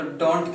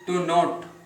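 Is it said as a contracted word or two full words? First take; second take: contracted; full. First: It is said as one contracted word. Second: It is said as two full words. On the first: "short form में करेंगे तो डोंट कहलाएगा"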